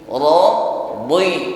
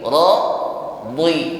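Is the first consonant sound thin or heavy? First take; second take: heavy; heavy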